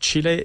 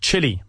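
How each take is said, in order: First: The name is said with a Spanish pronunciation. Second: The name is said with an English pronunciation. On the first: The speaker calls it wrong. "we don't say Chile. I've been in Spain too long" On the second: The speaker calls it right. "We say Chile"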